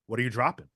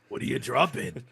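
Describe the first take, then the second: First: It is said in his normal voice. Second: It imitates the Resident Evil merchant's voice.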